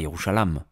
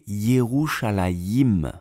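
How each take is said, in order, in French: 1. Le mot finit par les sons -am. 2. Le mot finit par les sons -ayim. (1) "pas Yerushalam" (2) "c'est Yerushalayim"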